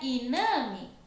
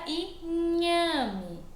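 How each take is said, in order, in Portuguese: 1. A consoante do meio é um som de n simples. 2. A consoante do meio é um som palatal ny. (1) "Se não tivesse o H aqui, seria iname, porque o som do N é assim" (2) "como tem o H aqui no meio, ele muda o som da palavra"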